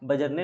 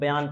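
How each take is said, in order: First: The name is said with a 'j' sound. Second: The name is said with a 'y' sound. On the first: The speaker calls it wrong. "ये बजरने नहीं है" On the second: The speaker calls it right. "बयान पढ़ना है"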